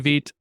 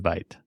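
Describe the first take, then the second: First: The word is given its French pronunciation. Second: The word is given an English pronunciation. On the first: This is how the other person says it. The speaker calls it right. "You say Vite" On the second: This is how the speaker himself says it. The speaker calls it wrong. "I say Vite"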